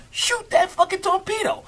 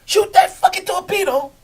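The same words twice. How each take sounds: First: High, yelled command; captain yelling a firing order down the boat; captain's order. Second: High, loud barked order; captain's order. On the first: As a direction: shout it at the crew. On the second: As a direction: yell the order like a sub captain. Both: Retold or imitated. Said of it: "the captain come in".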